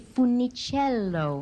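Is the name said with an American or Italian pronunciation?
Italian. The name is said with an Italian pronunciation. This is the correct pronunciation of the name. "it's such a beautiful Italian name if you pronounce it correctly"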